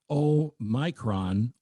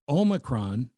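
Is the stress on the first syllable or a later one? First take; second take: later; first. First: The stress is on a later syllable. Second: The stress is on the first syllable. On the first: The speaker calls it wrong. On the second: The speaker calls it right. "but the emphasis on the O"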